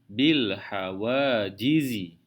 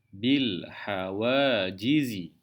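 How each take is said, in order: No difference in how they are said.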